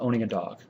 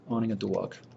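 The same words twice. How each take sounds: First: It is said in the speaker's normal accent. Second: It is said in a New Jersey accent.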